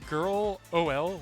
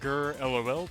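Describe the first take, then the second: First: The ending is spelled out as letters O, L. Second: The ending is said as the single word lol.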